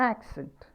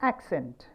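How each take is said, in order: No difference in how they are said.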